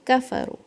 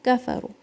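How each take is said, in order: The two takes are said the same way.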